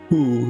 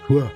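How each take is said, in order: First: The word has a full oo vowel. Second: The word has a reduced uh vowel. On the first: "instead of who" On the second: "it'll be"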